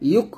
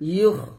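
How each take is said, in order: First: It ends in a hard, stopped k sound. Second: It ends in a raspy, throaty kh sound. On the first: The speaker calls it wrong. "ইউক বলবেন না" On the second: The speaker calls it right. "কাফ না এটা খ"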